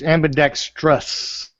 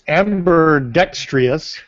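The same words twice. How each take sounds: First: No extra sound comes before the ending. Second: An extra 'ee' sound comes before the ending. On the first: The speaker calls it right. "There's no E before the O U S" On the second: The speaker calls it wrong. "that's the way Jake says it"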